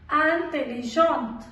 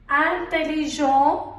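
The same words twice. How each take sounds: First: "intelligente" with sounded final t, slow and falling; feminine pronunciation. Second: "intelligent" with silent final t, slow and rising; masculine pronunciation. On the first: Teacher modelling the feminine form, "intelligente" with final t. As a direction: close "intelligente" on a clear t. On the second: Teacher modelling the masculine form, "intelligent" without final t. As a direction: end "intelligent" on an open nasal vowel. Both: Shown as a demonstration.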